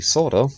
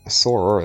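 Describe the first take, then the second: First: The name is said with Japanese pronunciation. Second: The name is said with English pronunciation. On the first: This is the original form of the name. "I prefer going with the Japanese pronunciation" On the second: This is the form most Western audiences know. "as most of Westerners probably know him as"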